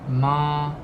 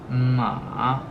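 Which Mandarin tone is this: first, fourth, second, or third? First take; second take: first; third. First: The pitch stays high and level. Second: The pitch falls low and then rises. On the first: "The first one Ma, Ma. It's always high" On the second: "So first it's falling and it's rising"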